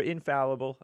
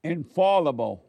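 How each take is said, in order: First: "infallible" with the short A of "pal", in-FAL-ible; short-A pronunciation. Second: "Infallible" with an AH in the second syllable, in-FAHL-ible; AH pronunciation. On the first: Offering the other way to say it, "infallible" with a short A. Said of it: "I don't know which one is more correct". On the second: Repeating the corrected word back to the co-host, "Infallible" with an AH. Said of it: "you can say infallible or infallible". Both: Shown as a demonstration.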